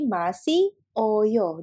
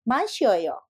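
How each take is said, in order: First: The vowels are kept apart as separate syllables. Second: The vowels are sped up and merged together.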